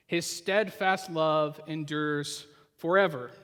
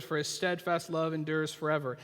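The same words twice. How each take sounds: First: Each word of the refrain drawn out slowly; slow, weighty reading of the refrain; slow emphatic refrain. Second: Said in the usual way. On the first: Shown as a demonstration. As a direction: savour the refrain, slow and deliberate. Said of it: "We f-, hear it in other psalms". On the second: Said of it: "at the very beginning of this psalm".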